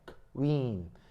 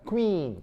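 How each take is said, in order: First: The first consonant is split off before the rest. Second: The consonants blend quickly into one syllable. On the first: "크, 크, 크 한 다음에 윈이에요" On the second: "이걸 빨리 발음하는 걸 우리가 퀸이라고 잘못 알아듣는 거예요"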